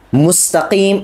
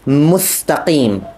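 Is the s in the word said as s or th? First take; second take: s; th. First: The word is said with a plain s sound. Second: The word is said with a th sound.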